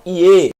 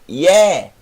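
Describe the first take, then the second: First: The vowel is said closed. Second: The vowel is said open. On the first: The speaker calls it wrong. "Não Ie" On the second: The speaker calls it right. "mas Ye. Ye. Agudo, aberto"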